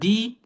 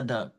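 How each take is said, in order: First: The vowel is a long 'ee' sound. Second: The vowel is a short 'uh' sound. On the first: "एक बार मैंने बोला दी" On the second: "इसी word को मैंने एक बार बोला द"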